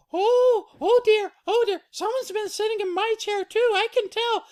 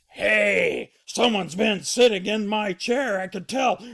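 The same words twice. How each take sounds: First: Very high, loud falsetto; Mama Bear fretting. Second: Loud, raised father bear voice; Papa Bear indignant. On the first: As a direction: flutter high as the upset mother bear. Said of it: "she goes". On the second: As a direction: boom out the complaint. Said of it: "and he goes". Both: Acted.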